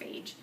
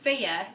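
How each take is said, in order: First: The name ends in a 'j' sound. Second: The name ends in a 'yuh' sound. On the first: The speaker calls it wrong. "It's not phage" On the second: The speaker calls it right. "which is pronounced Faya"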